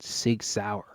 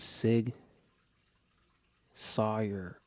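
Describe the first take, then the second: First: The second word sounds like 'sour'. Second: The second word sounds like 'sawyer'. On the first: The speaker calls it right. "It's called Sig Sauer. This doesn't say sour" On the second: The speaker calls it wrong. "I thought it was Sig Sawyer"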